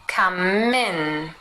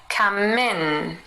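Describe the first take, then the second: The two takes are said the same way.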